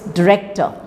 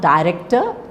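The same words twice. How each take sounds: First: The stress falls on the second syllable. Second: The stress falls on the first syllable. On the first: The speaker calls it right. "it's director" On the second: The speaker calls it wrong. "it's not director"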